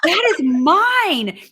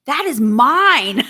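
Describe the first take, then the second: First: Slow, loud, higher playful claim with that stressed; hammed-up insistence on that; mock possessive. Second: Slow, loud playful claim on mine; hammed-up possessive claim over the money; mock possessive. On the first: Repeating the claim to Mike, mock possessive and louder. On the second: Joking to Mike that the money is hers, mock possessive.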